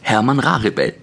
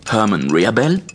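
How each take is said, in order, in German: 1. Der Name wird deutsch ausgesprochen. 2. Der Name wird englisch ausgesprochen. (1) "wie im Deutschen" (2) "wie im Englischen"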